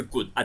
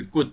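First: Good啊 said with a short, falling, stopped tone; fourth tone good. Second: Good said with a short stopped tone that pushes upward; good as Taiwanese eighth tone, rising and cut off. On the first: Teacher shows the fourth tone to the class, short and falling. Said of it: "我第四调是good啊". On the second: Teacher contrasts it with the fourth tone, rising and stopped. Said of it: "第八调是good". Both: Shown as a demonstration.

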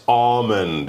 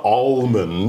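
First: ALMOND as "AW-mund", L left silent. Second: ALMOND with the L pronounced, as in "almost"; L sounded, wrongly. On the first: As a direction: say "almond" with the "aw" of August and no L. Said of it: "more of that kind of sound". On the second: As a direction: say "almond" with an audible L. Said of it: "L in almond is kind of a silent". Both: Shown as a demonstration.

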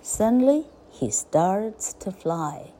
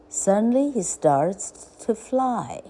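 First: Slow, word-by-word reading; slow repeat. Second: Said in the usual way. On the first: A narrator's reading. Narrator repeats the duckling's first flight, slowly. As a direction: spell out the sentence slowly.

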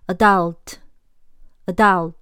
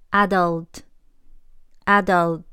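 First: Adult said "a-DULT", stress at the end; adult the American way, slowly; American pronunciation. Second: Adult said "AD-ult", stress at the front; adult the British way, very slowly; British pronunciation. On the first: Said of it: "美式adult". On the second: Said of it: "英式". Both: Shown as a demonstration.

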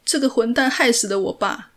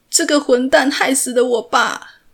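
First: Higher, louder, voice close to tears; tearful accusation. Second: Higher and much louder, stress on 蛋; desperate shout. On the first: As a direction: blurt it out through tears. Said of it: "蒲世禄哭着". (带着哭腔控诉) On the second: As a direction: repeat it louder, pleading to be understood. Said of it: "他又说了一遍". (更大声地哭喊) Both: A narrator's reading.

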